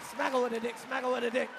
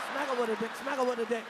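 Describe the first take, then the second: No difference in how they are said.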